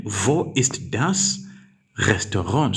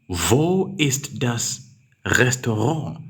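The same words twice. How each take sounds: First: "Wo ist das" very slow, rising; slow question. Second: Very slow and rising; slow dictation. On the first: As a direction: read the question slowly, stressing "Wo". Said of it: "that's now a question". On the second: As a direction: read the question slowly, rising at the end. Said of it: "You say". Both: Shown as a demonstration.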